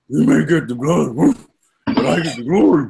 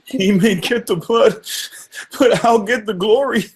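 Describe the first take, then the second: First: It is said in a dog-like voice. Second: It is said in a crying voice.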